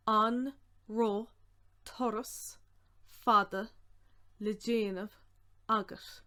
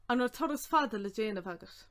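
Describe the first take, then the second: First: Word by word with long gaps; careful, spaced-out dictation; slow breakdown. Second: Said in the usual way. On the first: Shown as a demonstration. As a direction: sound out each piece for learners.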